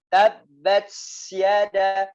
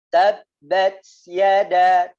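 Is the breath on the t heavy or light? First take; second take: heavy; light. First: The t is released with a heavy breath. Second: The t is released with a light breath. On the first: The speaker calls it wrong. "tidak boleh tabbat yada banyak" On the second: The speaker calls it right. "dikeluarkan nafasnya ini ya dengan dengan ringan"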